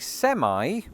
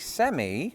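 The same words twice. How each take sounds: First: The word is said with an American pronunciation. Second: The word is said with a British pronunciation. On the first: It refers to a truck. "It should sound American" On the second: It refers to a semi-final. "I say semi if I'm watching the World Cup"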